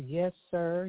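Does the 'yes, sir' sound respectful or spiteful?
respectful. It is said sincerely and respectfully. The speaker truly means the respect. The speaker calls it right. "It means something"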